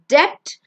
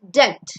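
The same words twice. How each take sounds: First: The b sound is pronounced. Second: The b sound is silent. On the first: The speaker calls it wrong. "it's not debt" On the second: The speaker calls it right. "Be silent"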